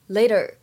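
The t is softened to sound like d. "美式英语当中呢可以有美音浊化的现象，就会觉得这里的t 读的呢有一点点像d 的感觉"

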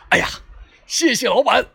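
It is said in a booming, rough announcer voice.

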